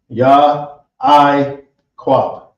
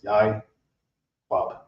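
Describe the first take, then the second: First: The opening is split into two syllables. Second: The opening is joined into one syllable. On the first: The speaker calls it wrong. "I was saying Ya I Quab" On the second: The speaker calls it right. "that is now one syllable instead of two"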